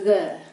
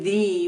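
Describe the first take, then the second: First: The vowel is a short uh sound. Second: The vowel is a long ee sound. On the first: It is ordinary everyday speech. "with a short U sound" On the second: Something really important is being talked about. "with a long E"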